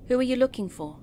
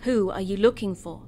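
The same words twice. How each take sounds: First: It is asked in a neutral tone. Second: It is asked in a stern tone.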